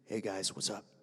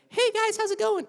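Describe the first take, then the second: First: It is said in a lower voice. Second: It is said in a higher voice.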